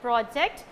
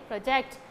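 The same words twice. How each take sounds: First: The stress is on the first syllable. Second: The stress is on the second syllable. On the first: It is used as a noun. "if you are giving stress to the first syllable" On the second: It is used as a verb. "If you are giving stress to the second syllable, then it's a verb"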